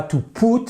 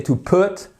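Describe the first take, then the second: First: "put" with a long French ou, like "poot"; over-round the vowel in "put"; wrong pronunciation demo. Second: "put" with a short, relaxed oo as in foot; correct pronunciation demo. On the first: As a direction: say "put" the mistaken way, vowel too tight. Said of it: "c'est pas to put". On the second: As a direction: model "put" with a lax short vowel, higher pitch. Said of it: "c'est to put". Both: Shown as a demonstration.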